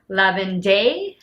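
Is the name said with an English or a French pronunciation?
French. The name is said with a French pronunciation. The speaker calls it right. "It's Lavender"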